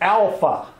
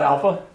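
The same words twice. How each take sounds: First: Each syllable is pronounced fully and distinctly. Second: The syllables are run together, not fully pronounced. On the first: The speaker calls it right. "it's alpha" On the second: The speaker calls it wrong. "It's not alpha"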